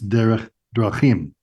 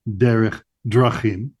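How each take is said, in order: First: Drachim is stressed on its last syllable. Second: Drachim is stressed on its first syllable. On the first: The speaker calls it right. "So first, last in the plural form" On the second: The speaker calls it wrong. "It's not"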